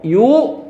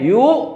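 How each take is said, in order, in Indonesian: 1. Suku katanya dipanjangkan. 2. Suku katanya dipanjangkan.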